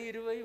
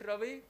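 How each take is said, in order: First: The word begins with a vowel before r. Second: The word begins directly with an r sound. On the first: The speaker calls it right. "Why irvai?" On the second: The speaker calls it wrong. "No, you don't say that"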